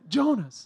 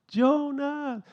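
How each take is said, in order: First: The name is called in a peculiar, slightly sad voice. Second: The name is called out dramatically, like in films.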